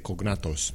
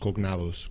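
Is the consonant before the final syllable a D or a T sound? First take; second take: T; D. First: The middle consonant is a T sound. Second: The middle consonant is a D sound. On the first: The speaker calls it wrong. "I always want to say cognatos" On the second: The speaker calls it right. "but I guess it's cognados with a D"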